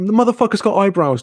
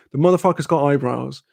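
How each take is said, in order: First: High, exasperated outburst; heated insistence. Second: Said in the usual way. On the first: Retold or imitated. Arguing with his mate, exasperated high outburst. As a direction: hit it hard and high, fed up.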